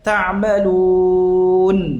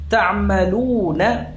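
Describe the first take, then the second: First: The word ends on a silent consonant. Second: The word ends with a short vowel. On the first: The reader stops on this word. "kalau berhenti disukunkan nunnya" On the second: The reading continues without stopping. "Akhirannya apa? Nun fathah"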